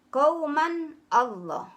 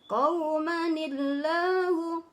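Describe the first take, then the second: First: The two words are said separately, without linking. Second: The words are joined with an added 'ni' sound. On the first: "qauman ditambah Allah" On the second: "Jadi qaumanil, n-nya hilang"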